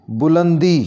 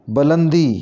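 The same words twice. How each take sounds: First: बुलंदी opening on 'bu'; correct pronunciation. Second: बुलंदी opening on 'ba'; mispronounced first vowel. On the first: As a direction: say बुलंदी as 'bu-lan-dee'. (बुलंदी के 'ब' पर पेश बोलें) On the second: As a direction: say बुलंदी as 'ba-lan-dee'. (बुलंदी को 'बलंदी' जैसा बोलें) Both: Shown as a demonstration. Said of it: "इसको सही ऐसे करके पढ़ेंगे".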